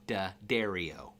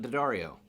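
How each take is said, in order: First: The middle of the name sounds like 'dairy'. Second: The middle of the name does not sound like 'dairy'. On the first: The speaker calls it right. "D A, had a little slash, and dairy like a cow, and O. So D'Addario. That's how you say it properly" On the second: The speaker calls it wrong. "I've been saying it wrong this my whole life"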